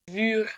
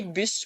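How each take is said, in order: First: "bur" with a lengthened French-like "u"; long U. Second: "bus" with a brief French-like "u"; short U. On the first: Teacher giving an example of length, long U. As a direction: say "bur" holding the "u". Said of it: "pour le son long". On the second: Teacher giving an example of length, short U. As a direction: say "bus" with the vowel cut short. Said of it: "pour le son court". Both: Shown as a demonstration.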